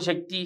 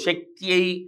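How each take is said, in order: First: The word ends in a plain 'ee' sound. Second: The word ends in a 'yai' glide. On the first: The speaker calls it wrong. "శక్తి అని చదవకూడదు" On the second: The speaker calls it right. "అని అక్కడ నాలుక తిప్పాలి"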